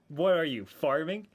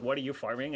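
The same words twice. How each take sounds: First: There is a pause after "you". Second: It runs on without a pause after "you". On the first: It mocks the very idea of farming. "I kind of read it like that" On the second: It asks which thing is being farmed. "Rahab asked me, like"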